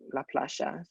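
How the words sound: The Y is said with a sh sound. This marks the speaker as from Argentina or Uruguay.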